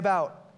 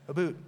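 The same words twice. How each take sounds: First: It is said in a plain American accent. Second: It is said in an imitated Canadian accent. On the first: "We said, say about" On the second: "Canadian, are you one of us?"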